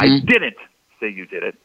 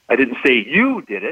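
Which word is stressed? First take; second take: didn't; you. First: The stress is on the word didn't. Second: The stress is on the word you.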